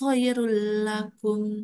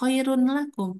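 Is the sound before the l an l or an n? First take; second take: l; n. First: The n merges into a doubled l sound. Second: A clear n sound comes before the l. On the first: The speaker calls it right. "tapi khairul lakum" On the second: The speaker calls it wrong. "Jadi gak khairun lakum"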